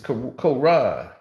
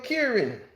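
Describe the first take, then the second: First: It is said as Quran. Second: It is said like the name Kieran. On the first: The speaker calls it right. "It's Quran" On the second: The speaker calls it wrong. "Your Kieran"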